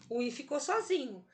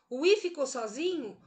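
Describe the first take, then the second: First: "O I ficou sozinho." settled, falling as an answer; statement tune. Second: "O I ficou sozinho?" as a question, pitch lifted on the key word; question tune. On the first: Teacher answering own quiz, "O I ficou sozinho." in falling statement tune. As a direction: confirm "O I ficou sozinho." with a final fall. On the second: Teacher quizzing students on the hiatus, "O I ficou sozinho?" in questioning tune. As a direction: ask "O I ficou sozinho?" expecting an answer. Teacher asks, then answers herself. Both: Shown as a demonstration.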